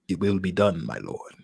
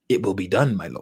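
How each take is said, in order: First: It is said in a put-on Darth Vader voice. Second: It is said in his plain reading voice.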